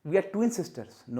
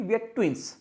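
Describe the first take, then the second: First: Very slow wrong sentence; wrong example, slow. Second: Said in the usual way. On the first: Shown as a demonstration. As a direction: stretch out We are twin sisters as the mistake.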